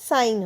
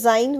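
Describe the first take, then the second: First: The word begins with a hissing s sound. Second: The word begins with a buzzing z sound. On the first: The speaker calls it right. "সাইন হচ্ছে" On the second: The speaker calls it wrong. "জাইন হচ্ছে না"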